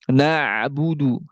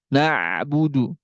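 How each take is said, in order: No difference in how they are said.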